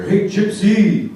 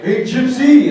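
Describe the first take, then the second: First: Drawn-out louder schoolyard call; mock taunt. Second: Higher, louder cheerful taunt; mock taunt. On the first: Middle school kids taunting him in the hallway, louder mock call. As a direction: shout it slowly down the hallway. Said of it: "I'd hear". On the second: Kids greeting him with a slur, higher louder mock taunt. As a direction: call out like a grinning kid. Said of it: "Kids would come up and be like".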